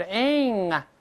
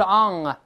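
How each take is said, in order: First: Ang said with a front "eh" before the ng; correct vowel. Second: Ang said with a back "ah", as in Chinese 昂; wrong vowel. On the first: Teacher corrects learners, ang with a front spread vowel. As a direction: make ang a high, spread "aeng". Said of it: "是ang啊". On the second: Teacher shows what to avoid, ang as Chinese "ahng". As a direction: make ang an open "ahng", louder. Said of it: "不是ang啊". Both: Shown as a demonstration.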